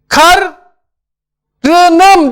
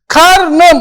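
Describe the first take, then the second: First: A vowel is kept between r and n. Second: No vowel is heard between r and n. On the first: The speaker calls it wrong. "Karınım diyemeyiz" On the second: The speaker calls it right. "Karnım oldu"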